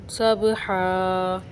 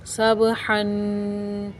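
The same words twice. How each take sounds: First: सब हा slow, final हा held long; pausal long ending. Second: सब हन very slow, हन hummed through the nose; ghunna on tanween. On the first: Teacher shows the pausal सब हा, long held हा. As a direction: stretch हा for one alif. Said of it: "वक्फ़ की हालत में हा अलिफ से बदल जाएगा". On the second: Teacher demonstrates ghunna on सब हन, slow nasal hum. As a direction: hold the nasal हन for one alif. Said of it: "नाक में आवाज़ ले जाने का नाम गुन्ना है". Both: Shown as a demonstration.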